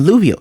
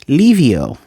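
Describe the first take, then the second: First: The first vowel sounds like 'oo'. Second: The first vowel sounds like 'ee'. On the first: The speaker calls it wrong. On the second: The speaker calls it right.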